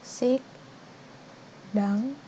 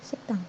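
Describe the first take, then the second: First: The two syllables are said separately. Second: The two syllables run together as one word. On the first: The speaker calls it wrong. "kalau satu persatu dibacanya itu sik dang" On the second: The speaker calls it right. "tapi dibacanya siktang"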